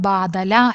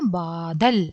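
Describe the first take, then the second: First: The word ends with an extra final vowel. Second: The word ends on the consonant l. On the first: The speaker calls it wrong. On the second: The speaker calls it right.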